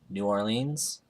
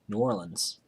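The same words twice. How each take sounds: First: It is pronounced carefully, as if read aloud. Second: It is pronounced in a relaxed, everyday way. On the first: The speaker calls it wrong. "it's not how I say it. It's how I read it" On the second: The speaker calls it right. "That's how I say it"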